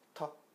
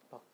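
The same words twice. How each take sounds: First: The first consonant is a strong, forceful tap. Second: The first consonant is a light, soft tap. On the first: "그냥 티귿 발음을 내보세요" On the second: "그 힘만 조금 약하게 해주면 됩니다"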